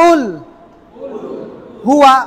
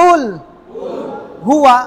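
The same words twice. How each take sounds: No difference in how they are said.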